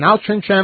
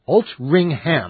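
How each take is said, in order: First: The middle is said with a 'ch' sound. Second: The middle is said with an 'ng' sound. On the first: The speaker calls it wrong. "It's spelled Altrincham" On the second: The speaker calls it right. "But it's pronounced Altringham"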